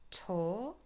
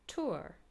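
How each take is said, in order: First: The vowel is a British long o. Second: The vowel is said in American style. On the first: "with a long o" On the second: "in American English"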